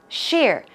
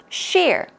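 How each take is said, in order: Both takes have the same delivery.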